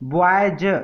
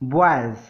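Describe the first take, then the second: First: The final z sound is strong and full. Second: The final z sound is soft and light. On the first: The speaker calls it wrong. "नहीं पढ़ते" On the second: The speaker calls it right. "इसको पढ़ते हैं बॉयज"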